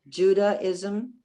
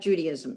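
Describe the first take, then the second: First: The first part sounds like 'Judaic'. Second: The first part sounds like 'Judy'. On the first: The speaker calls it right. "the way it's spelled, like Judaic" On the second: The speaker calls it wrong. "it's not the cult of Judy"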